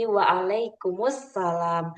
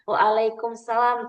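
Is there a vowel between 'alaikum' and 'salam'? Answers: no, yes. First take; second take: yes; no. First: It adds an 'us' sound before 'salam'. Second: It runs 'alaikum' straight into 'salam'. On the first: The speaker calls it right. "yang benar itu ... waalaikumussalam" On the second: The speaker calls it wrong. "bukan waalaikumsalam"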